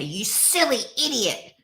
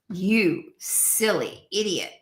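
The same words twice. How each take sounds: First: It is said in a squawky cartoon duck voice. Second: It is said in a low, sultry, seductive voice. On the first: The self-criticism becomes funny. "how Donald Duck in my instance would say" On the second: The self-criticism feels pleasant. "or you could change the tone to sultry"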